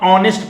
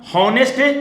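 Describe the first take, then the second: First: The word begins with a vowel sound. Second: The word begins with an h sound. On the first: The speaker calls it right. "हम ऑनेस्ट पढ़ रहे हैं" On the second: The speaker calls it wrong. "जाहिर सी बात है हम हॉनेस्ट नहीं पढ़ रहे हैं"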